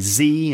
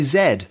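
First: The letter is said the American way, zee. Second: The letter is said the British way, zed.

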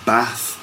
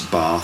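First: It is said with a northern English accent. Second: It is said with a southern English accent. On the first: "in the north, ... you get" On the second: "We'd say those things in London here"

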